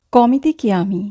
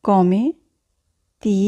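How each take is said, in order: First: Said in the usual way. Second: "Come" and "ti" set apart by a long pause; slow dictation with pauses; word by word. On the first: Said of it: "teacher models phrase". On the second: Shown as a demonstration. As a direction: say "Come ti" one word at a time. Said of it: "teacher repeats word by word".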